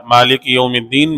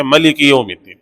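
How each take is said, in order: First: مالک recited with a long drawn first vowel, maa-lik; long-a Maalik reading. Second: ملک recited with a short first vowel, ma-lik; short-a Malik reading. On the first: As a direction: draw out the aa in مالک. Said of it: "الحمدللہ رب العالمین". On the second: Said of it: "میں دوسری قرات ایک ہے". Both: Shown as a demonstration.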